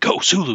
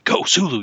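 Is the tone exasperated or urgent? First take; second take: urgent; urgent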